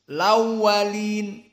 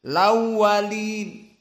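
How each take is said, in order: No difference in how they are said.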